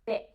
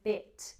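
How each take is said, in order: First: The final t is replaced by a glottal stop. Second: The final t is fully pronounced. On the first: "It's called a glottal stop" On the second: "instead of going bit"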